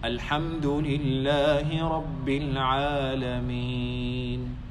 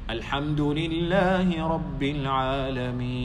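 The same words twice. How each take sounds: First: The phrase is recited at a moderate pace. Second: The phrase is recited quickly. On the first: "the tartil is" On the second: "It's faster than the tartil"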